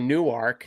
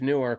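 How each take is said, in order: First: It uses the Delaware pronunciation of Newark. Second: It uses the New Jersey pronunciation of Newark. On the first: The place meant is Newark in Delaware. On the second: The place meant is Newark in New Jersey.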